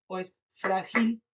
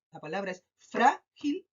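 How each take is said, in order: First: "frágil" mis-stressed as fra-GIL, rising; stress on last syllable. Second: "frágil" with a long FRÁ, then gil; stress on first syllable. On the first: Teacher testing the class with a wrong option, "frágil" as fra-GIL. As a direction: push the weight onto GIL in "frágil". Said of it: "identificar dónde se carga la voz". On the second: Teacher offering a choice, stress on FRÁ of "frágil". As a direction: lean on FRÁ in "frágil", slowly. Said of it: "se carga en". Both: Shown as a demonstration.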